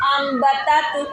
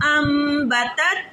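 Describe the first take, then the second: First: अम्बतत jolted on its syllables; अम्बतत bounced out as a faulty reading; wrong shaken reading. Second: अम्बतत with a long, steady hummed M; slow अम्बतत, smooth nasal hold before the B; steady ghunna. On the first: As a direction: shake अम्बतत instead of holding a steady hum. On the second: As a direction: hold the M of अम्बतत evenly, then finish cleanly. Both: Shown as a demonstration. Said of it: "ऐसे नहीं पढ़ना".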